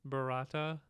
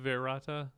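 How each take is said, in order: First: The word starts with a B sound. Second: The word starts with a V sound. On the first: The speaker calls it right. "So it's Klaatu, Barata, Nikto" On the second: The speaker calls it wrong. "your original? ... Klaatu Verata"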